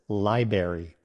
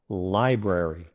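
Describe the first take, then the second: First: The first R sound is left out. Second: Both R sounds are clearly pronounced. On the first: The speaker calls it wrong. "Many people mispronounce it as library, drop in the first R" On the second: The speaker calls it right. "the correct pronunciation includes both R sounds"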